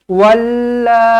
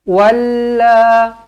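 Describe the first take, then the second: Both takes have the same delivery.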